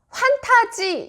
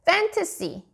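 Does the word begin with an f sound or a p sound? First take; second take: p; f. First: The word begins with a p sound. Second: The word begins with an f sound. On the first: The speaker calls it wrong. "판타지라고 하면 또 못 알아듣습니다" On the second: The speaker calls it right. "fantasy라고 말을 하면 우리나라 말로 했을 때 판타지 영화가 되는 것이죠"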